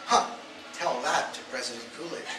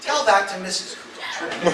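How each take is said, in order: First: Said in the usual way. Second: Slow, loud, laughing; laughing punchline. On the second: Retold or imitated. Comic landing the president's comeback with a laugh. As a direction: savor the comeback while laughing.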